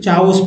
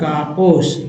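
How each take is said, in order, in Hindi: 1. इस शब्द की शुरुआत ch ध्वनि से होती है। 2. इस शब्द की शुरुआत k ध्वनि से होती है। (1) "कुछ लोग चाओस पढ़ेंगे" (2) "ये जो एच यहाँ साइलेंट है इसलिए काउस है ना"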